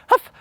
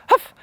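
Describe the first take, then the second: Both takes have the same delivery.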